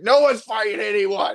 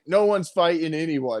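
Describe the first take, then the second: First: It is screamed very loudly. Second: It is said at a calm, normal volume.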